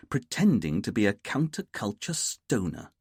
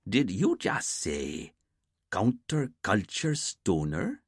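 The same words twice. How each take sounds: First: Said in the usual way. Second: Slow, disbelieving echo of "counterculture stoner"; slow, amused disbelief at the boss; incredulous repeat. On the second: Acted. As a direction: hold each word up as if it can't be real. Dwayne incredulous at phrase.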